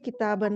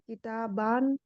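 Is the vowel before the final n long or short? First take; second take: short; long. First: The vowel before the final n is short. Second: The vowel before the final n is long. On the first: The speaker calls it right. "इसको सिंपल बोलेंगे किताबन, मतलब उसको प्रोनाउंस नहीं करेंगे" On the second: The speaker calls it wrong. "किताबान इस तरह नहीं बोलेंगे"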